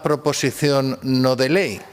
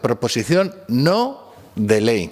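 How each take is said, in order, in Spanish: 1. La frase se dice a un ritmo normal. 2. La frase se dice despacio y de forma deliberada.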